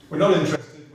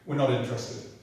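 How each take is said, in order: First: Louder, insistent on NOT; firm louder repeat. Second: Said in the usual way. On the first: Retold or imitated. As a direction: hammer the refusal home. Officials repeating their refusal, insistent.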